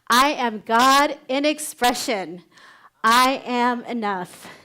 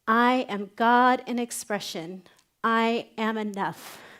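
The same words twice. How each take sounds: First: It is said with strong, heartfelt feeling. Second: It is said plainly, without much feeling.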